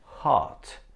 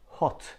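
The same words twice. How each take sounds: First: The vowel is an open unrounded long A. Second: The vowel is a rounded short O. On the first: "Americans pronounce it differently. They say hot" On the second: "we produce this sound in words like hot"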